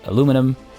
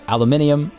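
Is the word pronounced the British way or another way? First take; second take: other; British. First: The word is pronounced a non-British way. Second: The word is pronounced the British way. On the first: "I know many people say aluminum" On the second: "Aluminium is uh, is the is the uh, quote unquote you know British way of saying it"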